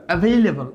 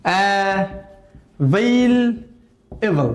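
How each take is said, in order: First: Said in the usual way. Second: available very slowly, syllables drawn out; broken up. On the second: Shown as a demonstration. Teacher demonstrating broken-up reading, very slow syllables. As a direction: stretch and separate uh, veil, এবল in available. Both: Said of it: "ভেঙে ভেঙে পড়বেন".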